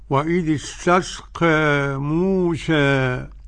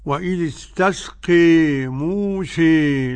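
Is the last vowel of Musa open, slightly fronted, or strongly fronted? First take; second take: slightly fronted; strongly fronted. First: The final vowel of Musa leans slightly toward e. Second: The final vowel of Musa leans strongly toward e. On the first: "الوجه الثاني الذي قرأته فضيلتكم هو التقليل" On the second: "بالإمالة"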